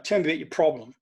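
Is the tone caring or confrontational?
confrontational. It is said in a sharp, confrontational tone. The speaker calls it wrong. "if I was to use tone with"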